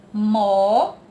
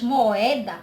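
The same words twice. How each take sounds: First: "Moeda" loud, syllable by syllable with pauses; split into syllables. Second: Said in the usual way. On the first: Shown as a demonstration. Teacher dividing the word for pupils, "Moeda" slowly split into syllables. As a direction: break "Moeda" into mo, e, da, drawn out. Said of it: "Mas na hora de separar". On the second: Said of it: "Quando a gente diz moeda".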